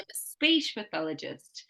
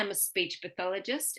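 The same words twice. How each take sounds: First: The stress is on speech. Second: The stress is on pathologist.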